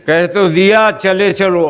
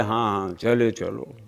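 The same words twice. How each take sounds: First: Louder, higher impatient retort; exasperated repeat. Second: Low, soft brush-off; offhand assent. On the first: God rebukes the nagging worshipper, loudly impatient. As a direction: push it out as if already said once. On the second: God answers the pleading worshipper, quietly dismissive. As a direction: murmur it low, waving the petitioner on. God's brief answer to plea. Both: Acted.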